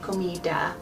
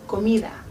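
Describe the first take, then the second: First: The D is a hard stop sound. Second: The D is soft, almost like TH. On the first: The speaker calls it wrong. "It's not a hard D like in American English. So you wouldn't say comida" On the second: The speaker calls it right. "a little bit softer, but my tongue is still behind my teeth"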